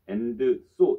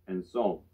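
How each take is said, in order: First: The two words are separated by a pause. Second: The two words run together without a pause. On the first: The speaker calls it wrong. "and, so 이렇게 읽으면 좀 이상하지 않으세요?" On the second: The speaker calls it right. "And so 이렇게 읽으시면 됩니다"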